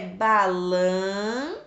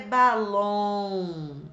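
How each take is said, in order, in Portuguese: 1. A palavra termina com um som nasal 'ão'. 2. A palavra termina com um som nasal 'om'. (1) "ou é balão" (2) "ou é balom"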